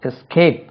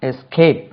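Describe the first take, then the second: Both takes have the same delivery.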